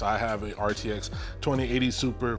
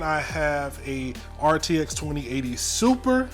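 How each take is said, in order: First: It sounds firm and certain, like a statement. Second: It sounds hesitant and questioning, like unsure. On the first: The speaker is sure about the part. The speaker calls it right. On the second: The speaker seems uncertain about the part. The speaker calls it wrong. "I don't know why I said it like that, like I'm not sure"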